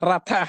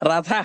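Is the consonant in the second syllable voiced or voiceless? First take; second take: voiceless; voiced. First: The second consonant is a voiceless th sound. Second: The second consonant is a voiced dh sound. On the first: The speaker calls it right. "రెండో అక్షరం పలకాలి. రథ అని చదువుకోవాలి" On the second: The speaker calls it wrong. "రథ కాదు అనమాట"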